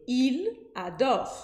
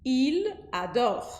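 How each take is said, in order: First: Il adore said as two separate words; words split apart. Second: Il adore linked, L joined to the A; linked French. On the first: Teacher shows the wrong, separated il adore. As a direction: pause between il and adore. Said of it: "Eu não disse il adore". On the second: Teacher shows the correct linked Il adore. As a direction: run Il adore together as i-la-dor. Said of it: "eu dividi as sílabas". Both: Shown as a demonstration.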